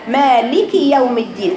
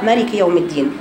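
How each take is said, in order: First: The vowel after the first consonant is long. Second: The vowel after the first consonant is short. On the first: The speaker calls it right. "هاتي الفتحة للاخر واكسري اللام" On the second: The speaker calls it wrong. "يقع الخطا فيها كمان يا بنات في حذف المد"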